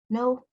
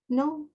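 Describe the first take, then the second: First: It is said timidly, like a little girl. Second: It is said timidly, like a little girl.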